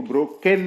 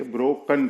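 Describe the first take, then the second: First: ब्रोकेन with a full "ken" ending; wrong pronunciation. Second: ब्रोकन with a weak "kun" ending; correct pronunciation. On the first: Teacher showing what not to read, ब्रोकेन ending in "ken". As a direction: sound the written e in ब्रोकेन. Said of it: "नहीं पढ़ेंगे". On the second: Teacher correcting the reading, ब्रोकन ending in "kun". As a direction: reduce the last vowel of ब्रोकन to a schwa. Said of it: "ब्रोकन पढ़ेंगे". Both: Shown as a demonstration.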